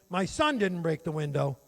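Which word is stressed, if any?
son. The word "son" is said louder.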